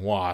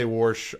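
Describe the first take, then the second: First: "wash" plain, no r, wahsh; corrected wash. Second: "warsh" with an r slipped in, wahrsh; Southern warsh with an r. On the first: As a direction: say "wash" the standard way. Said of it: "forced myself to start saying". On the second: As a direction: say "warsh" like his mom, with an r before sh. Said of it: "that's how my mom used to say it". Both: Shown as a demonstration.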